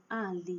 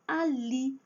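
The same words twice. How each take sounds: First: "Ali" as A-li, ending weak; wrong stress on first syllable. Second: "ali" as a-LI; stress on last syllable. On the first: Teacher shows what nobody says, "Ali" stressed on A. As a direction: hit the A of "Ali". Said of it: "ninguém fala assim". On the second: Teacher lists examples, "ali" stressed on final LI. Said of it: "a última sílaba é a forte". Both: Shown as a demonstration.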